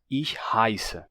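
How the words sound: The vowel is an 'eye'-like diphthong. This is the standard German pronunciation. "o alemão padrão mudou para"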